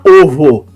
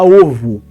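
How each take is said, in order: First: The final vowel is a full 'o' sound. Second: The final vowel is reduced to a 'u' sound. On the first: The speaker calls it wrong. "A gente não fala ovo" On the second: The speaker calls it right. "a gente fala ovo"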